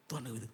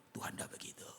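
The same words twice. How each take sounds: First: Said in the usual way. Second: Hushed, breathy whisper of Tuhan tidak begitu; whispered aside to the congregation. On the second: Acted. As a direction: drop to a near whisper, softer. Quiet repeat after emphatic line.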